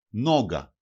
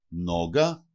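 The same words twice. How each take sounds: First: Νόγκα stressed on Νό, falling; penultimate stress. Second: Νόγκα stressed on Νό, low start and rising end; penultimate stress. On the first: Teacher showing two-syllable words to learners, first-syllable stress, falling. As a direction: hit the first syllable of Νόγκα, then drop. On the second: Teacher repeating the example for learners, first-syllable stress, rising. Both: Shown as a demonstration. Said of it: "τονίζεται πάντοτε η παραλίγουσα".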